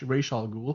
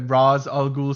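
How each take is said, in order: First: The first word sounds like 'Resh'. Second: The first word sounds like 'Raz'. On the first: This is how the animated series and games say it. "I think he meant to say Resh" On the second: This follows the word's sound in Urdu. "like Raz"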